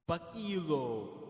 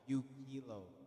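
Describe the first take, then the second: First: The first vowel is not an 'oo' sound. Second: The first vowel is an 'oo' sound. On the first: This is how some other people pronounce it. "I don't know if some people pronounce it like that, but that's not how I pronounce it" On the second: This is the speaker's own pronunciation. "that's how I pronounce it"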